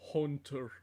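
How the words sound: It is said in a Northern English accent, with 'oo'. "really heavy like Northern English accent"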